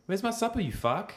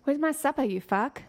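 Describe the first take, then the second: First: Put-on very high South African accent; Stephen Hudson. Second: Put-on South African accent, starting high; South African demand with a rising end; Stephen Hudson. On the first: Copying the friend's quote of him, high South African accent. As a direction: squeeze the South African way up high, rising end. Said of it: "See, that was really good". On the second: Quotes him for the friend to copy, South African accent. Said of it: "He says".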